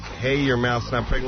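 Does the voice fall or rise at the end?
rise. The voice rises at the end like a question. It sounds like asking whether the mouth is pregnant. The speaker calls it wrong.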